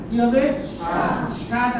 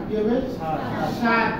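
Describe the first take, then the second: No difference in how they are said.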